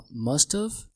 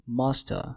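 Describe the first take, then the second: First: The word have is pronounced in full. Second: The word have is reduced into must. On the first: "ممكن ننطقها must have" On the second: "زي ما هو نطقها واغلب الامريكان بينطقوها"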